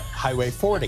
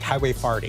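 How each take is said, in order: First: Forty is said with an 'or' vowel. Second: Forty is said with an 'ar' vowel. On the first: "instead of highway forty" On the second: "we pronounce O's like A's"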